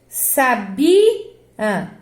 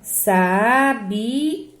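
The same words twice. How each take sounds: First: The stress is on the second-to-last syllable. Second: The stress is on the last syllable. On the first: "aqui é sabia. É uma paroxítona" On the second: "O A aqui, né? Ele é forte, é tônico"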